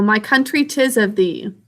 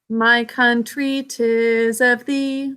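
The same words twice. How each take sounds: First: Said in the usual way. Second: Slow, sustained sung melody; singing. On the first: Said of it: "If you are singing a song like". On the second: Shown as a demonstration. Teacher demonstrating pitch in a song, slowly sung. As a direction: sing it slowly, holding each note. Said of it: "Where our voice goes up and down".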